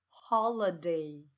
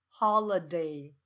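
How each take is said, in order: No difference in how they are said.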